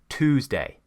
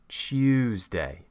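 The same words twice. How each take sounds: First: It begins with a plain t and oo. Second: It begins with a t and y sound. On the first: This is the American pronunciation. "An American says" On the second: This is a British pronunciation. "we create the y and it becomes"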